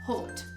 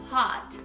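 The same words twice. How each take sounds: First: A British accent with a more closed o. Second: An American accent with a very open o. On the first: "E o britânico já falaria mais hot" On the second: "o americano falaria assim, bem abertinho"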